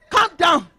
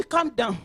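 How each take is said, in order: First: "Calm down." said higher and louder; emphatic repeated "Calm down.". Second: Said in the usual way. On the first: Shown as a demonstration. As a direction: raise your voice on "Calm down.".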